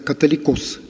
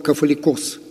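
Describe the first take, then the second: First: The consonant after the first vowel is t. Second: The consonant after the first vowel is f. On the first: This is how the word came to be said in the West. "на Западе стало произносить как «католикос»" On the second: This is the original Greek form of the word. "слово «кафоликос»"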